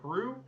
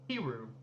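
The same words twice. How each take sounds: First: It sounds like the name of the country. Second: It sounds different from the country's name. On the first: This is how younger residents say it. "younger your residents usually pronounce the name as the nation Peru" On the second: This older form is used by elderly residents. "you actually use the archaic pronunciation Peru"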